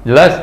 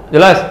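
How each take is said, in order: Both takes have the same delivery.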